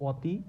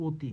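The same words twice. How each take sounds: First: অতি opening on an open "aw", "awti"; wrong pronunciation. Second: অতি opening on a closed o, "oti"; standard pronunciation. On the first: Teacher asks if we say it so, mispronouncing অতি as "awti". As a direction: misread অতি with a wide open first vowel, "aw-ti". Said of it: "আমরা কিন্তু এটা বলি না". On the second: Teacher models standard pronunciation for learners, অতি as "oti". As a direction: say অতি with a rounded "o" as in "go". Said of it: "উচ্চারণটা কেমন হচ্ছে". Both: Shown as a demonstration.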